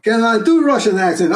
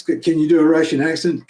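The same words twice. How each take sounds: First: Put-on higher, louder Russian-accented reply. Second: Said in the usual way. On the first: Actor echoing an audition question, in a Russian accent.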